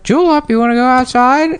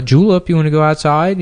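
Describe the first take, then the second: First: Much higher squawky parrot imitation; parrot mimicking owner. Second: High, coaxing voice to the dog; talking to a dog. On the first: Spiteful parrot mimicking the owner to set off the dog. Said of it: "hear the parrot go". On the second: Retold or imitated. Owner asking the old dog to go outside, high and coaxing. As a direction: ask the dog sweetly if it wants out. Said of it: "they would say to the dog".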